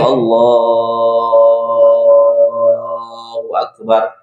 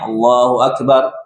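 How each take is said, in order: First: It is drawn out, stretched long. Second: It is said at normal length.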